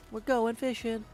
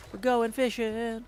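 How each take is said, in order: Both takes have the same delivery.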